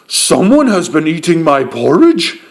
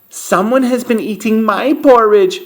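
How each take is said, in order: First: A loud, deep, booming big voice. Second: A medium, mid-pitched voice.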